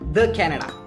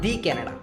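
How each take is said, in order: First: 'The' is said with a short uh vowel. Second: 'The' is said with a long ee vowel. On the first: The speaker calls it right. "If Canada is there" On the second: The speaker calls it wrong.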